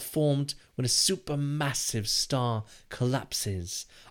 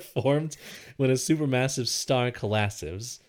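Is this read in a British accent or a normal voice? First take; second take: British; normal. First: It is read in a put-on British accent. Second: It is read in the speaker's normal accent.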